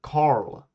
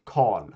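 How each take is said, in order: First: Carl with English r, "karl". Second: Carl with silent r, long o, "kol"; Carl, no r, long vowel; Swedish Carl. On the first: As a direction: Carl with the r sounded. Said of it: "In English, you might say". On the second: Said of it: "We don't really say the R". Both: Shown as a demonstration.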